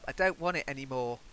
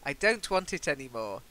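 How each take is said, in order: First: The T sounds are dropped. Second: The T sounds are clearly pronounced. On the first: The speaker calls it wrong. "dropping your T is quite common in some parts of the U K" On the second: The speaker calls it right. "it's best to end with T"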